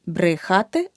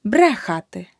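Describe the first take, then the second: First: Брехати with и after бр; the mistake in брехати, и for е; wrong vowel demo. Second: Брехати with a clear е after бр; correct vowel demo. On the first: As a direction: say брехати wrongly as "bry-khaty". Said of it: "Не брехати". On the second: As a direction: say брехати as "BRE-khaty", first syllable punched. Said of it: "Брешу". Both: Shown as a demonstration.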